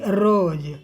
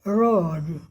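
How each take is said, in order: First: The r is trilled, with the tongue fluttering. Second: The r is smooth, with no tongue vibration. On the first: The speaker calls it wrong. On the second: The speaker calls it right.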